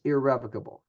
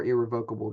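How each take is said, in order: First: Irrevocable with stress on REV; first pronunciation. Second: Irrevocable with stress on VOKE; alternative pronunciation. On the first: Presenter stating a gift can't be undone, irrevocable stressed on REV. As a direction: say irrevocable as ir-REV-uh-kuh-bul. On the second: Presenter offering another pronunciation, irrevocable stressed on VOKE. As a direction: say irrevocable as ir-ree-VOKE-uh-bul. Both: Shown as a demonstration. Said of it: "depending on how you, how you pronounce that".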